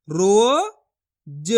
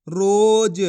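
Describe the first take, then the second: First: रोज split slowly into रो and ज; syllable by syllable. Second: Said in the usual way. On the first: Shown as a demonstration. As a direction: join रो and ज slowly. (रोज को अक्षर-अक्षर धीरे बोलो) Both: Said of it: "तो मिलके बन जाएगा".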